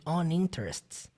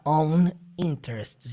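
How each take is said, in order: First: The two words run together as one. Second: The two words are said separately. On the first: The speaker calls it right. "Fica tudo junto" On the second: The speaker calls it wrong. "Não fica on interests dividido"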